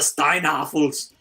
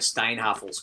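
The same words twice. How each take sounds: First: It is said in a put-on German accent. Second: It is said in a plain American accent.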